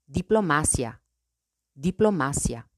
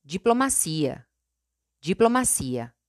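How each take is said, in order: First: "diplomacia" in Spanish, stressed on MA. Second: "diplomacia" in Portuguese, stressed on CI. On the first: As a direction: say "diplomacia" as di-plo-MA-sya. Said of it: "En español". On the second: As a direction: say "diplomacia" as jee-plo-ma-SEE-a. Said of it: "En portugués". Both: Shown as a demonstration.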